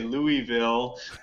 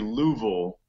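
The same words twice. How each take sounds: First: The name is said with three syllables. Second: The name is said with two syllables. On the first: The speaker is not from there. The speaker calls it wrong. "they know that I'm not from there because I say Louisville" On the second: This is how locals say it. The speaker calls it right. "it's supposed to be two syllables"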